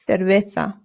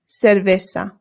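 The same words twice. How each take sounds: First: The C and Z sound like th. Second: The C and Z sound like s. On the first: "this is Spain pronunciation" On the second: "If you want to be more Latin American"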